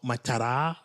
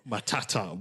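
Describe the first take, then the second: First: The middle consonant is a soft flap. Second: The middle consonant is a crisp t. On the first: The speaker calls it wrong. "I don't know why it's not Matara" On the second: The speaker calls it right. "You got to bring those T's"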